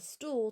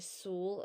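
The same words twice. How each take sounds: First: The word is said with its T sound. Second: The word is said without its T sound. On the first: It shows the intended form of the word. The speaker calls it right. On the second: It shows a speech disorder deleting a consonant. The speaker calls it wrong.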